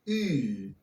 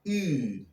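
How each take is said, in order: First: The vowel is a fronted oo sound. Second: The vowel is a fronted oo sound.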